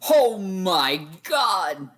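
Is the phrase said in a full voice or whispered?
full voice. It is said in a full, voiced tone.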